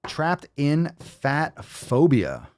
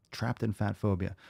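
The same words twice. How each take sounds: First: Slow, drawn-out, high announcer call; dramatic announcer. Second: Said in the usual way. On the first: Acted. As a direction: stretch it like a big title reveal. Announces the video title dramatically.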